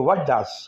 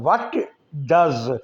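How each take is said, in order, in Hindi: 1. t छोड़ दिया जाता है और 'does' में मिल जाता है। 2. 'does' से पहले t साफ़ उच्चारित होता है। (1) "टी को हम हटा देंगे" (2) "व्हाट डज नहीं बोलेंगे"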